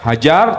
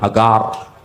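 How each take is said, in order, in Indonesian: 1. Konsonan di tengah itu bunyi j. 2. Konsonan di tengah itu g keras. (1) "Orang Ibrani itu nggak bisa ngomong huruf huruf jim" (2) "Jadi G, misalnya Hajar jadi Hagar"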